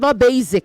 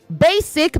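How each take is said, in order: First: The middle consonant is a z sound. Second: The middle consonant is an s sound. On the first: The speaker calls it wrong. "not z" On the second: The speaker calls it right. "It is s"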